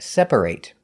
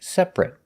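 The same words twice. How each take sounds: First: The ending sounds like 'ate'. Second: The ending sounds like 'it'. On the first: It is used as a verb. "If it's a verb, we pronounce it ate" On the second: It is not used as a verb. "if it's not a verb, we pronounce it it"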